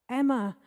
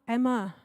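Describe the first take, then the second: No difference in how they are said.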